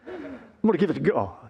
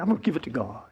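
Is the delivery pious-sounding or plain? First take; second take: pious-sounding; plain. First: It is said with a pious, lilting inflection. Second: It is said plainly, without extra inflection.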